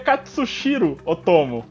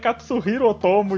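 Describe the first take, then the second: First: The name has an extra S sound. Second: The name has no extra S sound. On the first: The speaker calls it wrong. "eu li o nome desse desgraçado errado" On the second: The speaker calls it right. "a pronúncia correta é Katsuhiro Otomo e não tem um S ali"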